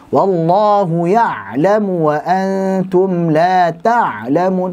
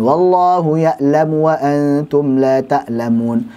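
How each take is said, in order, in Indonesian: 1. Ain ditekan keras, seperti orang muntah. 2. Ain dilemahkan menjadi hamzah biasa. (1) "terlalu ditekan sehingga seperti orang yang memuntah" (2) "meremehkan menjadi huruf hamzah"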